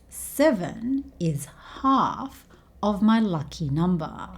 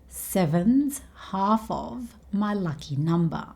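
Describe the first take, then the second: First: Every word is said clearly and separately. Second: Seven and is run together into one word. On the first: "he chose to say every word clearly" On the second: "he could have just said"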